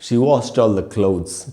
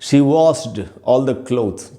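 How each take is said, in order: First: Washed ends with a plain t sound. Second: Washed ends without a plain t sound. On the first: The speaker calls it right. "अगर ट बोलेंगे" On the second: The speaker calls it wrong. "सुनने में खराब लग रहा है"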